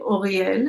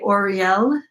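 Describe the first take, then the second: First: It is said with a throaty Hebrew r. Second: It is said with an English r.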